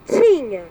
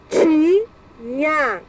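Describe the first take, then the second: First: Said in the usual way. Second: "Tinha" split as ti, nha with a pause between; "Tinha" as two detached syllables. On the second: Shown as a demonstration. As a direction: sound out "Tinha" in two drawn-out beats. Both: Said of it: "separar em sílabas".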